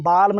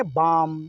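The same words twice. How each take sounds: First: "बाल्म" with L voiced before M; L sounded. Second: "बाम" with long vowel straight into M; silent L. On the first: Teacher shows what not to read, L sounded in "बाल्म". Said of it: "बाल्म नहीं पढ़ेंगे". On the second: Teacher gives the correct reading, L silent in "बाम". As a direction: say "बाम" with no L sound. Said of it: "इसको बोलेंगे बाम". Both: Shown as a demonstration.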